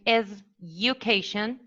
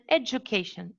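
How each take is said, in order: First: The d and y sounds stay separate. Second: The d and y sounds merge together. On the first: The speaker calls it wrong. "instead of saying education" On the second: The speaker calls it right. "you say education"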